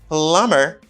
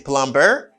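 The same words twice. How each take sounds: First: The b sound is silent in the word. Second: The b sound is pronounced in the word. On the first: The speaker calls it right. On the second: The speaker calls it wrong.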